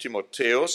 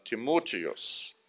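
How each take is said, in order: First: The stress falls on the third syllable. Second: The stress falls on the second syllable. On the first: The speaker calls it wrong. "nicht Timotheus" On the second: The speaker calls it right. "sondern Timotheus wird das ausgesprochen"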